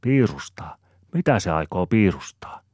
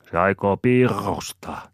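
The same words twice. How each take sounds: First: Higher, louder puzzled "piirustaa"; puzzled wondering. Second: "piirustaa" with a long, rolled r; slowly, loudly trill the r in "piirustaa"; burred R. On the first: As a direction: ask in mild wonder, "piirustaa" without the burr. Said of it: "Aapeli ihmettelee". (ihmetellen kysyen) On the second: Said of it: "sorauttaa Topi". ("piirustaa" ärrää soraututtaen) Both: A narrator's reading.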